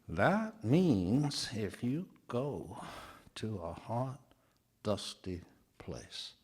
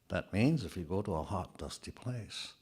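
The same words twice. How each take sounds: First: It is said slowly and firmly, word by word. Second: It is said at a normal, neutral pace.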